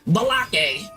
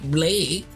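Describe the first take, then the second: First: The name is said with two syllables. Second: The name is said with one syllable. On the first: The speaker calls it wrong. "I'd be getting everyone's names wrong" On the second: The speaker calls it right. ""It's Blake.""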